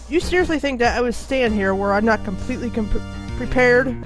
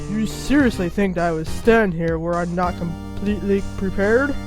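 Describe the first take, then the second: First: The voice is at its normal pitch. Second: The voice is pitched noticeably deeper.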